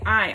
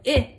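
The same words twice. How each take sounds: First: The vowel is the long sound, like eye. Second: The vowel is the short sound, as in sit. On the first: "it makes actually the name of the letter" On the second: "instead of saying"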